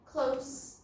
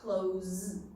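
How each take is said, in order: First: The word ends with a hissing s sound. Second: The word ends with a buzzing z sound. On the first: It is the adjective meaning not far away. "Close with an S sound is an adjective" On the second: It is the verb meaning to shut. "that's close with a Z sound"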